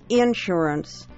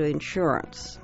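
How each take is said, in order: First: The stress is on the first syllable. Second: The stress is on the second syllable. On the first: The speaker calls it wrong. "the big bugaboo" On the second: The speaker calls it right. "which is the preferred pronunciation"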